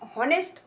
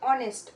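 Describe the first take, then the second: First: The word begins with an h sound. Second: The word begins with a vowel sound. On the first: The speaker calls it wrong. "আমরা কি হনেস্ট তো বলি না" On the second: The speaker calls it right. "অনেস্ট man বলি"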